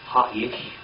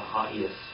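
First: The word ends with an 'sh' sound. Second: The word ends with an 's' sound. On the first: The speaker calls it right. "It's Ha'ish" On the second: The speaker calls it wrong. "Not Ha'is"

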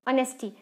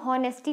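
First: The word begins with a vowel sound. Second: The word begins with an h sound. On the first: The speaker calls it right. "एच silent component है, हम इसको क्या pronounce करते हैं ऑनेस्टी" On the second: The speaker calls it wrong. "ऑनेस्टी को हम हॉनेस्टी नहीं pronounce करते हैं"

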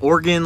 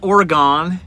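First: The word sounds like 'organ'. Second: The word does not sound like 'organ'. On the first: The speaker calls it right. "like an internal organ, and you're close enough" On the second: The speaker calls it wrong. "Not Oregon"

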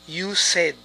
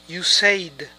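No difference in how they are said.

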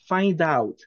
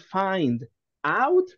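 First: The two words run together without a stop. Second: There is a stop between the two words. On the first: The speaker calls it right. "Don't stop" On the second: The speaker calls it wrong. "If you say find out, you stop"

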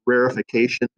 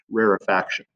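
First: The word ends in '-fication', with an extra syllable. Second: The word ends in '-faction', without an extra syllable. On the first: The speaker calls it wrong. "It's sometimes pronounced rarefication" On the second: The speaker calls it right. "really the proper pronunciation for this phenomenon is rarefaction"

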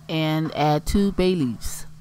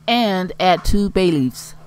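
First: It is said in a less excited tone. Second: It is said in a more excited tone.

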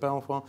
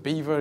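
First: The name is said as bel-vwar. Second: The name sounds like the word beaver. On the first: "Is it sort of Belvoir?" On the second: "Is it sort of Beaver?"

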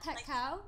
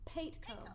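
First: The first syllable does not rhyme with 'late'. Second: The first syllable rhymes with 'late'. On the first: The speaker calls it wrong. "It's not Paetko" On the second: The speaker calls it right. "it's Paetko, as in Late Show"

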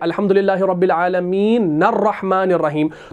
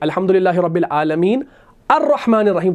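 First: The final n links straight into 'rahman'. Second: 'Rahman' starts fresh with an 'a' sound. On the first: The two verses are recited together without stopping. "नून को हम आगे रॉ से मिलाते हैं" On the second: Each verse is recited on its own. "अर्रहमान के हमजा को पढ़ेंगे ज़बर देकर"

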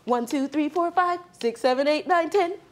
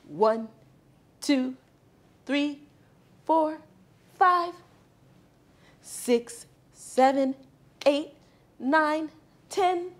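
First: The numbers are counted very fast. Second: The numbers are counted slowly.

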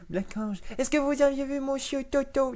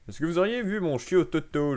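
First: It is read in an attempted little girl voice. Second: It is read in the speaker's normal voice.

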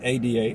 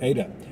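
First: The word is not said like the name Ada. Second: The word is said like the name Ada. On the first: The speaker calls it wrong. "It's not ADA" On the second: The speaker calls it right. "It's actually ADA. And that happens to be a woman's name"

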